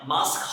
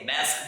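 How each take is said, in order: First: It is said with a British accent. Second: It is said with an American accent.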